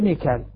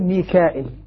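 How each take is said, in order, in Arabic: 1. ليس فيه همزة ولا ياء مدّ طويلة. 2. فيه همزة متبوعة بياء مدّ طويلة. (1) "حذف الياء والهمزة ميكال" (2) "الذين يهمزون يقول ميكائيل"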